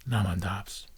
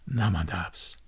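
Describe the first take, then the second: The two takes are said the same way.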